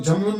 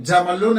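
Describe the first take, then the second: First: जमलुन as jam-lun; wrong vowelless m. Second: जमलुन as ja-ma-lun; correct open m. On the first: Teacher rejecting the misreading, जमलुन as jam-lun. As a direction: close the first syllable on m in जमलुन. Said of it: "जमलुन नहीं है". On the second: Teacher correcting the misreading, जमलुन as ja-ma-lun. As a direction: give m its own a, जमलुन in three syllables. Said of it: "जमलुन है". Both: Shown as a demonstration.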